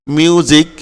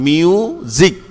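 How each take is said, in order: First: Said in the usual way. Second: "মিউজিক" split into miu, zik; higher "মিউজিক" with a clear z in zik; syllable by syllable. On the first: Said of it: "এসটা কখন জ এর মতো হয়? দেখো". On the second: Shown as a demonstration. Teacher breaking down music for students, syllable by syllable. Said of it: "জিক হয়েছে, কেমন? সিক হয় নাই".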